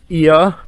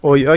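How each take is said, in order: First: The name starts with an 'ee' sound. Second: The name starts with an 'o' sound. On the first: The speaker calls it right. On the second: The speaker calls it wrong.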